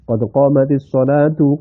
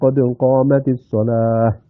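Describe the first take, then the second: First: The last word ends with a full 'tu' syllable. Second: The last word ends cut short with 'h'. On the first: The phrase is joined to what follows. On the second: The phrase is stopped on at the end.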